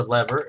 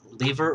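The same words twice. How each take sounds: First: "lever" pronounced LEV-er; short-e lever. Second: "lever" pronounced LEE-ver; long-e lever. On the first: Teacher naming the device both ways, then "lever" as LEV-er. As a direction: give "lever" a short e, like the start of "level". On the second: Teacher naming the device both ways, first "lever" as LEE-ver. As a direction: give "lever" a long ee, like "leave" plus -er. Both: Shown as a demonstration. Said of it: "however you want to pronounce it".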